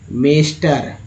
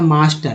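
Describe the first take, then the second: First: The first vowel sounds like 'ay'. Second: The first vowel sounds like 'ah'. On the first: The speaker calls it wrong. "ये एकदम गलत उच्चारण हो रहा है ना" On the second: The speaker calls it right. "यहाँ पर जो है आ उच्चारित किया गया ए को"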